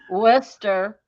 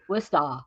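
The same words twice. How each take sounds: First: It is said without a Boston accent. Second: It is said in a Boston accent. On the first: "Eddie said Worcester" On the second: "if you're from Massachusetts, Worcester, like Boston"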